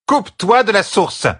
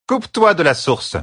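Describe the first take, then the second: First: Higher, more forceful command; high, pressing order from an exasperated teacher; insistent repeated order. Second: Sharp high-pitched command; first firm command, raised voice; ordering. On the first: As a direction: insist hard, pitch right up. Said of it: "répéta Hydrel". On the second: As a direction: order it firmly, pitch well up. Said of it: "ordonna-t-elle". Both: A narrator's reading.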